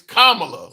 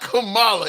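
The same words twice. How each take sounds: First: The first part sounds like the word 'comma'. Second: The first part does not sound like 'comma'. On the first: The speaker calls it right. "it's Kamala, like the like a comma punctuation" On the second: The speaker calls it wrong. "it's not Kamala"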